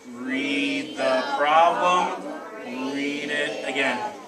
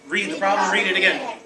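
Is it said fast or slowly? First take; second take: slowly; fast. First: It is said very slowly. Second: It is said very fast.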